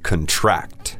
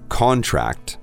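First: The stress is on the second syllable. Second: The stress is on the first syllable. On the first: It is a verb. "but now we have the verb contract" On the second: It is a noun. "like we just heard contract"

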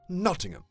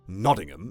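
First: The t is crisp and clearly released, British style. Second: The t is soft and flapped, North American style. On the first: The speaker calls it right. "perhaps a British person would be like" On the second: The speaker calls it wrong. "I'm pronouncing the T's like a North American"

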